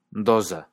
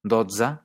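First: Doza with a buzzing z; voiced z. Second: Dotze with a ts in the middle, dot-sa; ts sound. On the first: Teacher contrasting Catalan word pairs, voiced z. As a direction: buzz the z in doza. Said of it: "doza significa dosis". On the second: Teacher contrasting Catalan word pairs, ts sound. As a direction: bite the tz in Dotze. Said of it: "Dotze significa doce". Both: Shown as a demonstration.

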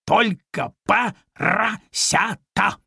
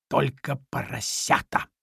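First: Slow, weighty, higher cat voice with a rising end; imposing cat. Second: Said in the usual way. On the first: Acted. Cat lecturing the piglet, slow and imposing. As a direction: drag it out grandly like a pompous cat. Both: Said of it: "внушительно повторил кот".

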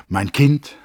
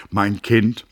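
First: Higher and louder fond address to the dwarf; a hint of grand tenderness, rising; Peeperkorn addressing the girl. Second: A touch of sternness in the address; mildly stern and earnest address to the dwarf; earnest, almost stern. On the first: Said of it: "sagte er". (leicht erhoben und lauter: „Mein Kind“ an die Zwergin) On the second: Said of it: "fuhr er aufs Ernsteste und fast mit Strenge fort". (ernst, beinahe streng zur Zwergin) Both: A narrator's reading.

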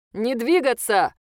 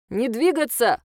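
First: Slow, loud robotic command; drone loudspeaker. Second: Loud robotic command over speaker; drone loudspeaker. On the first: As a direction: bark it through a speaker. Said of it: "прозвучал из динамика ближайшего дрона". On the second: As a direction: bark it like a police drone. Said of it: "повторил дрон". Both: Acted.

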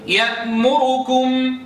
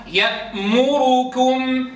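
First: يأمركم with the damma on the ra snatched and quick; barely touch the u in يأمركم. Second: يأمركم slowly chanted with a full damma on the ra. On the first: Teacher chanting the snatched damma. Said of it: "انظروا كيف اختلسنا". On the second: Teacher chanting the complete damma. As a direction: hold the u of يأمركم its whole length. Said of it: "هذا ضم تام". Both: Shown as a demonstration.

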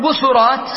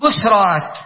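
First: بشرات said bu-su-rat, sin with damma; بشرات with the middle voweled, busurat; vowel-following plural. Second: بشرات said bus-rat, sin silent; بشرات with no vowel on the sin, busrat; plural with sukun. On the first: Teacher recalling the first form for students: بشرات as busurat. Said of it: "وبشرى كنا نقول بشرات". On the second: Teacher showing students the sukun form: بشرات as busrat. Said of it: "سنقول". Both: Shown as a demonstration.

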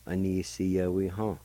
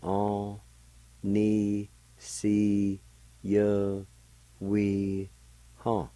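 First: Said in the usual way. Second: Each syllable drawn out and held level, a pause after each. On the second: Shown as a demonstration. Teacher showing listeners the word for "each", syllable by syllable. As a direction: sound out On, ni, si, ye, we, ha one at a time. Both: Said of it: "it's pronounced like this".

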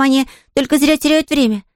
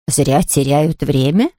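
First: Put-on high child's voice, stating it simply; earnest little girl. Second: Slow, lower, puzzled question rising at the end; bewildered invalid. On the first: Girl telling the invalid sleep is wasted, earnest. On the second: A narrator's reading. Invalid echoing the girl's odd idea, bewildered. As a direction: repeat it slowly in disbelief. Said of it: "недоуменно воскликнула больная".

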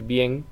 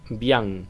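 First: "bien" said with a clear E, as in Spanish "bjen"; "bien" with the Spanish E, the recommended way. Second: "bien" said with an open nasal A, like "bjaŋ"; "bien" mispronounced as "bian", the mistake to avoid; wrong nasal vowel. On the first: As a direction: say "bien" just like the Spanish word. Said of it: "Es mejor decir bien como en español". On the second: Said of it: "es importante no decir bien". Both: Shown as a demonstration.

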